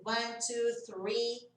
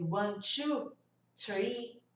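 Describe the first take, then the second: First: "two" with a crisp T, no pucker; clean T counting. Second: "two" said as "chu"; wrong learner count. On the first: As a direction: count with "two" starting on a true T. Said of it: "To, to e to". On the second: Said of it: "Ao invés de one". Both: Shown as a demonstration.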